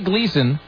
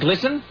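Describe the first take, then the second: First: The first vowel is a long ee sound. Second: The first vowel is a short i sound. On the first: The speaker calls it wrong. "so we say Gleason" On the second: The speaker calls it right. "but it's really Glisten"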